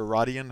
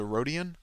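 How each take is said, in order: First: Rodian said as RAH-dee-un; short O in Rodian. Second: Rodian said as ROH-dee-un; long O in Rodian. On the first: Gamer trying another pronunciation of the species, Rodian as RAH-dee-un. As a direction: say Rodian with an open first vowel, "RAH". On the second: Gamer naming the alien species he plays, Rodian as ROH-dee-un. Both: Shown as a demonstration. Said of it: "however you pronounce it".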